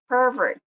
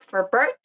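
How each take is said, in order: First: The stress is on the first syllable. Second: The stress is on the second syllable. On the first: It is used as a noun. "on nouns are stressed or marked at the first syllable" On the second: It is used as a verb. "the stressed syllable is on the second syllable"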